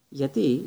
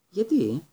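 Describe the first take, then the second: First: Measured why, opening an explanation; slightly frowning. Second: Higher-pitched, puzzled why; surprised question. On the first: Teacher echoing his pupil before explaining, slightly frowning. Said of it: "ελαφρώς συνοφριωμένος". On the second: Pupil taken aback by his teacher's answer, surprised question. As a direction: ask why, caught off guard. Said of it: "επανέλαβε". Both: A narrator's reading.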